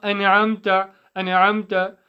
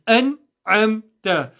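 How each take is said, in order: First: "أنعمت" quick, with a bounce after the n; "أنعمت" with an extra vowel on the noon; wrong echoed noon. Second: Commit to the n of "أنعمت", no vowel after it; deliberate "an-'amta", "أنعمت" in clean syllables; correct still noon. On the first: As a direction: show the slip in "أنعمت", as "ana'amta". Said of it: "So it's not". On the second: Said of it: "There's no echo on the noon". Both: Shown as a demonstration.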